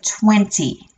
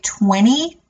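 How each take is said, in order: First: The middle t sound is clearly pronounced. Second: The middle t sound is dropped. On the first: This is how British speakers say it. "instead of twenty" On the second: This is how American speakers say it. "I don't have the t, t at the end of that word at the in the middle there. So I would say twenty"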